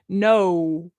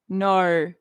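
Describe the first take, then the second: First: It is said in an American accent, with a W. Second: It is said in the speaker's own accent.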